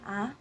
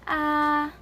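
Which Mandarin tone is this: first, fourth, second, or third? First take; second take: second; first. First: The pitch rises like a question. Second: The pitch stays level and flat. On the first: "pointed upwards ... sound like you're asking a question" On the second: "the first tone ... looks like a dash"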